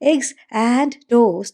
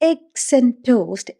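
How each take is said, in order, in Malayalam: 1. 'and' എന്ന വാക്ക് പൂർണ്ണമായും വ്യക്തമായും ഉച്ചരിക്കുന്നു. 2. 'and' എന്ന വാക്ക് ഒരു ചെറിയ ശബ്ദമായി ചുരുങ്ങുന്നു. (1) "എഗ്സ് ആൻഡ് ടോസ്റ്റ് എന്ന് പറയുന്നതിന് പകരം" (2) "I eat eggs ആൻഡ് toast എന്ന് മാത്രമേ കേൾക്കുള്ളൂ ആൻഡിന് പകരം"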